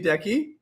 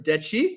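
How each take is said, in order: First: The name is said with an English pronunciation. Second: The name is said with an Italian pronunciation.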